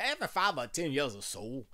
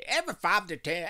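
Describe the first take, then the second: First: Said in the usual way. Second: Loud, high country twang on the opener. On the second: Shown as a demonstration. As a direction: read it like a country announcer. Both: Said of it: "I sound like a country".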